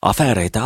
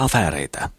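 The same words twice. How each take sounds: First: Breezy exclamation brushing off the aunt; exclaiming. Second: Said in the usual way. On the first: Acted. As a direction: Mikko cheerfully exclaiming "Afääreitä". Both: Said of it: "huudahtaa Mikko".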